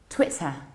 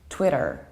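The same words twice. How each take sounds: First: The middle T is soft, maybe a glottal stop. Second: The middle T is strong and crisp. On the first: "with soft British T and possible glottal stop" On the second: "with short E and strong American T"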